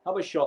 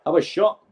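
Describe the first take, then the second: First: Said in the usual way. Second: High, loud shout at the screen; urging shout. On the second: Real, not acted. Fan yelling at a player on screen to shoot, high and loud. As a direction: yell at him to shoot.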